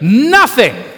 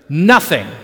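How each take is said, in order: First: It is said forcefully, with strong conviction. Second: It is said plainly, without special feeling.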